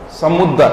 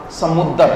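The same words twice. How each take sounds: The two takes are said the same way.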